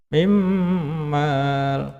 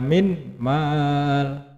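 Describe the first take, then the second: First: The n merges into the following m. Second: The n is kept separate before the m. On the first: The speaker calls it right. "ini nun sukun bertemu dengan mim" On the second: The speaker calls it wrong. "tidak boleh dibaca min mal"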